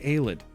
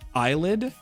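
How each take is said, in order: First: The word does not sound like eyelid. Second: The word sounds like eyelid. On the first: The speaker calls it right. "I know how to say Aelid" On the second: The speaker calls it wrong. "I have said in my mind since I was young"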